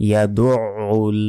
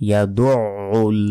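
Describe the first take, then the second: Both takes have the same delivery.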